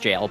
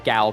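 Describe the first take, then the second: First: The word begins with a j sound. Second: The word begins with a hard g. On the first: "I know it's jail" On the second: "but I say uh, Gal"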